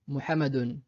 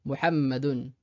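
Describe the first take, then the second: First: Muhammadun avec un seul m court; single m. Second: Muhammadun avec le m doublé et tenu; Muhammadun, appuyer sur le mm; doubled m. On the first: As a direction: Muhammadun sans doubler le m. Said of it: "S'il n'y avait pas ce signe-là". (Muhammadun, m simple sans shadda) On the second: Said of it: "étant donné qu'il y a la shadda". (Muhammadun avec shadda, m double) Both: Shown as a demonstration.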